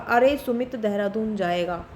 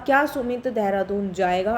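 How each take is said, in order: First: It is said with surprise. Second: It is said as a question.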